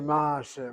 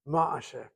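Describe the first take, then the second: First: The stress is on the first syllable. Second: The stress is on the last syllable. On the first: The speaker calls it wrong. "We don't say ma'aseh" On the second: The speaker calls it right. "So you hit the last syllable"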